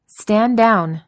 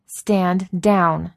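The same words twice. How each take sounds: First: Loud sharp command; yelled. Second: Firm, steady, less loud; firm repeat. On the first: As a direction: bark the order out. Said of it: "Maria yelled". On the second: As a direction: repeat the order with authority. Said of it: "she repeated". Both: A narrator's reading.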